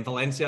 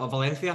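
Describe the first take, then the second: First: Said in the usual way. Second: "Valencia" with the C said as th; Spanish lisped C. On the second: Retold or imitated. Teasing his friend's Spanish lessons, "Valencia" with a lisped C. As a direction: say "Valencia" as Valenthia, Castilian style. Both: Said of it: "he's been pronouncing the C's".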